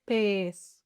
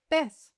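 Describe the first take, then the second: First: PEZ slow and low, with a long E; slow, sustained "Pez" for the listener; drawn-out demonstration. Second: Said in the usual way. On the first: Shown as a demonstration. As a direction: stretch the vowel in "Pez". Word stretched for listening practice.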